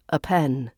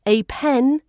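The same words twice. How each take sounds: First: "a pen" with A reduced to uh; schwa article. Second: "A pen" with A said as "ay"; full letter A. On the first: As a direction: link an unstressed uh into "pen" in "a pen". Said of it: "we also use a schwa sound". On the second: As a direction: give the A of "A pen" its letter name. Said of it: "when we use the letter A". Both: Shown as a demonstration.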